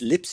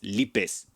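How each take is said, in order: First: The name is said with an English pronunciation. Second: The name is said with a Spanish pronunciation. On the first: "it's lips in English" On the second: "if you pronounce it in Spanish, it's lipes"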